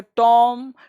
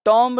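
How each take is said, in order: First: "टॉम" ending on m, no b; silent b. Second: "टॉम्ब" with an audible b at the end; b sounded. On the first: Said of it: "इसको पढ़ेंगे टॉम". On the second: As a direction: say "टॉम्ब" as spelt, b and all. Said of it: "टॉम्ब नहीं". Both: Shown as a demonstration.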